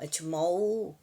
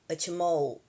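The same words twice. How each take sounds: First: The final L is a clear L sound. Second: The final L sounds like a U vowel. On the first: The speaker calls it right. "Não, etmol" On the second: The speaker calls it wrong. "Porque o L a gente usa como se o som do U"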